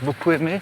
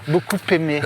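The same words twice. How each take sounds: First: The words are said without a linking p sound. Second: A p sound links the two words together. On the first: The speaker calls it right. "J'aime pas faire les liaisons, donc je vais dire beaucoup aimé" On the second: The speaker calls it wrong. "et non pas beaucoup aimé. Ça m'agace"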